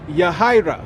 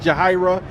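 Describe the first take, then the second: First: The name starts with a Y sound. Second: The name starts with a J sound. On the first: This is the original island form of the name. "a specific name that is uh, uh, native to the island of Puerto Rico" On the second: This is how the name is said after moving to America. "they pronounce the J"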